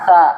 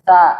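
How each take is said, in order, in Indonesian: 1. Konsonannya adalah bunyi 'th' yang lembut. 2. Konsonannya adalah bunyi 'th' yang lembut.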